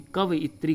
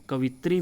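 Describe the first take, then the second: First: कवइत्री with an extra vowel; correct pronunciation. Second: कवित्री in three syllables; short VI in कवित्री; incorrect pronunciation. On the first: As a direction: say कवइत्री as "ka-va-i-tri". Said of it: "उपयोग होता है शुद्ध रूप". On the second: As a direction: say कवित्री as "ka-vi-tri". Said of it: "कवइत्री का उपयोग होता है". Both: Shown as a demonstration.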